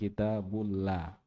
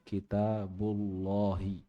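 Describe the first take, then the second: First: The l sound is thin and light. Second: The l sound is thick and heavy. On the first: The speaker calls it wrong. "Bukan kitabullah. Kalau la itu tipis namanya ya" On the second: The speaker calls it right. "Lamnya dibaca tebal ya"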